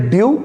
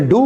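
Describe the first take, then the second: First: ड्यू said as dyoo, with a y glide before the long oo; pronounce due. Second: डू said as a plain doo, with no y glide; pronounce do. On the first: Teacher models ड्यू as dyoo for students. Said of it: "इसकी pronunciation है ड्यू". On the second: Teacher contrasts डू, plain doo, against due. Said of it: "इसकी pronunciation है डू". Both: Shown as a demonstration.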